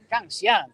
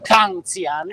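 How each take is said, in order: First: The stress falls on the last syllable. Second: The stress falls on the first syllable. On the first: The speaker calls it right. "in realtà è Canzian" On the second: The speaker calls it wrong. "molti lo pronuncino con Canzian"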